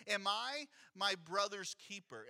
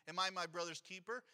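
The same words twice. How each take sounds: First: Slow, lightly sarcastic question, falling at the end; understated sarcasm, slowed down; sarcastic rhetorical. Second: Lightly sarcastic rhetorical question; a hint of sarcasm, rising at the end. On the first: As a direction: drag it out as if the answer is obviously no. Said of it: "sarcastic, rhetorical question". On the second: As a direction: toss it off as if it's not your problem. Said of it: "It's sarcasm here". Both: Shown as a demonstration.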